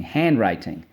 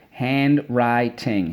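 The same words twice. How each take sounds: First: Said in the usual way. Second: "Handwriting" slowly split as hand, wri, ting; every syllable of "Handwriting" given full weight. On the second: Shown as a demonstration. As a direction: chant "Handwriting" in three separate beats. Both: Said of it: "so let's go".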